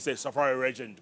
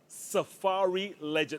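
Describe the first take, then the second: First: It is said in a regional home accent. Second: It is said slowly and carefully. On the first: "people from where I come from will probably say" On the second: "I had to say that very slowly"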